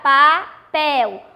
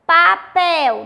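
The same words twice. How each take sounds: First: "papel" slowly split, final "pel" emphasised; stress on PEL. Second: Said in the usual way. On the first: Shown as a demonstration. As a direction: break "papel" in two and lean on "pel". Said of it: "O pel é mais forte". ("papel" pausado, com a sílaba "pel" mais forte) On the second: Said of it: "Vamos pronunciar papel".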